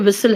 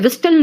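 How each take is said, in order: First: The t sound is silent in the middle. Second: The t sound is pronounced in the middle. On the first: The speaker calls it right. "टी silent है" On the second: The speaker calls it wrong. "विस्टल नहीं है बेटा"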